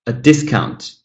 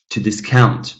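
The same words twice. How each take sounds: First: "discount" as a noun, first syllable stressed. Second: "discount" as a verb, second syllable stressed; light start, weight on COUNT in "discount". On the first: Teacher models the noun for students, first-syllable stress in "discount". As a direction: hit the DIS in "discount". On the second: Teacher models the verb for students, second-syllable stress in "discount". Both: Shown as a demonstration. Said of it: "this follows the pattern here".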